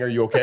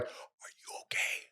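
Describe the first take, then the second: First: Said in the usual way. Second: Slow, voiceless imitation of mouthing; barely audible whisper, as if only mouthing it; mouthed whisper. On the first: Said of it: "Are you, like, mouthing". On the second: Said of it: "like, mouthing".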